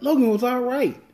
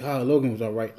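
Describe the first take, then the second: First: Much higher, indignant repeat of his words; incredulous echo. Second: Said in the usual way. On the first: Retold or imitated. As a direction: throw it back in high-pitched disbelief. Incredulous echo of dad's lukewarm verdict. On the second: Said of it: "He's like".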